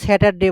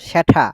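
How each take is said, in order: First: The t is a plain, unaspirated sound. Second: The t is a strongly aspirated sound. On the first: "আগে কিন্তু এটাকে আমরা স্যাটারডে বলতাম" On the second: "ঠ উচ্চারণ হবে"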